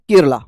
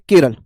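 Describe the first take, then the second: First: The word ends with an added final 'a' vowel. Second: The word ends on the consonant without a final vowel.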